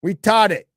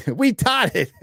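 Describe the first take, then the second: First: Said in the usual way. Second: Slow, high, giggling "We taught it"; amused, breaking into laughter on the pun; laughing through it. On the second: Real, not acted. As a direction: crack up while saying it.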